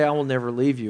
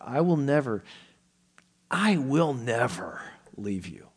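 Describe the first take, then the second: First: The words flow evenly without special emphasis. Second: The word never gets strong, heavy emphasis. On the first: The promise sounds casual and ordinary. The speaker calls it wrong. "it just kind of rolls off the tongue" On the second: The promise is absolute and forceful. The speaker calls it right. "That's the sense that the author is giving"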